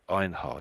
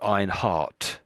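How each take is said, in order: First: The name ends with a D sound. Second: The name ends with a T sound. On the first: This is how Americans would say it. "I think Americans would probably say Einhard" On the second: This is how Europeans or British people would say it. "would probably make that into a T sound"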